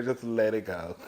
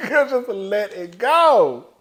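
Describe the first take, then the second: First: Said in the usual way. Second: "go" stretched long with a swooping pitch; higher, slow emphatic repeat, dragging out "go"; drawn-out plea. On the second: Retold or imitated. Repeats advice, hammed up for emphasis.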